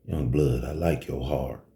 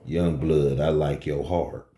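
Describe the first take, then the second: First: Low, quiet dealer voice. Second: Low, cool hustler voice; lowered dealer voice. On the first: Chicago dealer sizing up the young bouncer, low and cool. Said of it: "He said just like that". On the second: Dealer repeating his compliment to the bouncer, low and cool. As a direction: lower and cooler, a dealer's calm approval. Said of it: "he said to me". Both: Retold or imitated.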